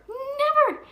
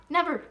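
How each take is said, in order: First: "Never." shouted much higher and louder; shrieked warning. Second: "Never." stressed higher and louder, falling; firm warning. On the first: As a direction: scream "Never." up high, then fall. Escalated warning. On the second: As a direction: hit "Never." hard and drop. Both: Real, not acted.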